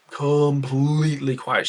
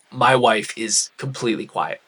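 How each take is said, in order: First: Completely quiet said slowly, leaning on completely; slow emphatic repeat. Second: Said in the usual way. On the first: Shown as a demonstration. Telling viewers his wife went silent, slow emphatic repeat. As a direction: stretch out completely for weight.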